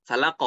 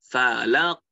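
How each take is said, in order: First: Falaq ending on a plain light k; flat k falaq. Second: Falaq ending on a deep throaty qaf. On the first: Teacher showing the wrong falaq. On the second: Teacher showing the right falaq. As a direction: end falaq on a heavy qaf. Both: Shown as a demonstration. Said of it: "Itu bukan falaq".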